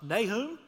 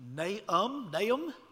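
First: It is said in a standard English way. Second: It is said Hebrew-style with the h silent. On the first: "is the way we say it in English" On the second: "H would be silent in Hebrew"

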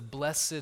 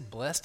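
First: The word is said in a formal churchy way. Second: The word is said in a plain everyday way. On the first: This is the traditional wording used in worship. "that's how you say it in church" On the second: This is how the word sounds in ordinary conversation. "I just say blessed now"

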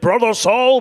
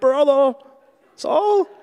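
First: It is said forcefully, with strength. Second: It is said hesitantly, without strength.

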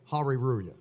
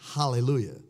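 First: The word is said with r sounds. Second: The word is said with l sounds. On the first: "they still say, hariruya" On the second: "It's just a different pronunciation of what you're saying, hallelujah"

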